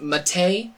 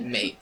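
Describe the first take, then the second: First: The final E is pronounced as a second syllable. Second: It is said as one syllable, rhyming with gate. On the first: "Random Dude says it's pronounced Mate. I will pronounce it Mate when they add an accent over the E" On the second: "Until then, I'm pronouncing it Mate"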